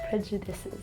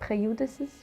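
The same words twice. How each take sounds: First: The j is said as in 'judge'. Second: The j is said like a 'y' sound. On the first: The speaker calls it right. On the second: The speaker calls it wrong.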